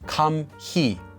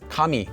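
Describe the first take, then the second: First: The middle h sound is clearly pronounced. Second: The middle h sound is silent. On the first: The speaker calls it wrong. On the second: The speaker calls it right. "It's just pronounced as"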